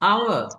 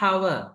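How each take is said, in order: First: The word begins with a vowel, no h. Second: The word begins with an h sound. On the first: The speaker calls it right. "our என்ன மணித்தியாலம்" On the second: The speaker calls it wrong. "நிறைய பேர் பிழையா hour என்று pronounce பண்ணுவாங்க"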